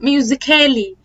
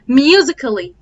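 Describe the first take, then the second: First: The vowel before the final L is fully pronounced. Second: The vowel before the final L is silent. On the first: The speaker calls it wrong. "معظم الناس بتقول" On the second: The speaker calls it right. "ال A ما بتتنطقش"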